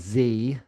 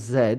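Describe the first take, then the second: First: It is said the American way, as 'zee'. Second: It is said the British way, as 'zed'.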